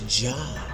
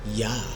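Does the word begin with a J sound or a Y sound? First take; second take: J sound; Y sound. First: The word begins with a J sound. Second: The word begins with a Y sound. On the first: This is the altered later pronunciation. The speaker calls it wrong. "now that becomes Jah" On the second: This is the original Hebrew pronunciation. The speaker calls it right. "when you say Yah"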